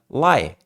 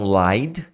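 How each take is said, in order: First: The word ends without any d sound. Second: The word ends with a clear d sound. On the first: "Você tira o D" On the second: "Você tira o D"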